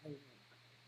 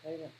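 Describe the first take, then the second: First: It is drawn out slowly. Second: It is said very quickly.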